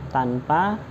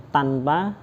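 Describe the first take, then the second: Both takes have the same delivery.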